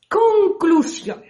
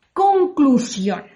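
First: Conclusión repeated higher and stretched out slowly; higher drawn-out repeat. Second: Said in the usual way. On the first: Shown as a demonstration. Storyteller stressing the moral to her listeners, high slow Conclusión.

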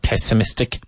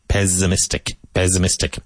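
First: Pessimistic with a hard hissed S; the wrong way, pessimistic with a sharp S; wrong S sound. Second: Pessimistic with the double S buzzed as a Z; Z sound. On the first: Teacher showing students the wrong S in pessimistic. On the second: Teacher giving students the right Z in pessimistic. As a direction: say pessimistic as pe-zi-mistic. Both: Shown as a demonstration. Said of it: "it sounds like a Z".

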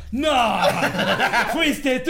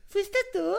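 First: Louder, shameless retort thrown back at her; cynical comeback. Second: Much higher, startled asking voice; her sudden question. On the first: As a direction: fire the question right back cheekily. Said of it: "bien cínico le digo". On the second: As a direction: ask it like she just woke up surprised. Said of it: "Y de repente me dice". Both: Retold or imitated.

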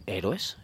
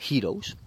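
First: Héroes said the Spanish way, rolled r, stress on É; Spanish pronunciation. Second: Heroes said the English way, HEER-ohz; English pronunciation. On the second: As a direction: Heroes as in English, two syllables. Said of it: "y es Héroes". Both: Shown as a demonstration.

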